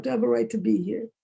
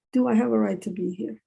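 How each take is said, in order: First: Quick question to oneself, rising at the end; self-questioning. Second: Deliberate question, set apart by a pause; self-questioning. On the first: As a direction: ask it in a quick, doubting run. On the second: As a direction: ask it again in measured words, rising at the end. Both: Retold or imitated. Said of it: "I'm always questioning myself".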